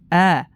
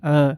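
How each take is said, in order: First: The vowel is open and light, mouth fully open. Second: The vowel is heavy and thick, mouth barely open. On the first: The speaker calls it right. "hakikat harokat fathah adalah dengan membuka mulutnya agar sempurna bacaannya" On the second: The speaker calls it wrong. "maka akan tebal bunyinya"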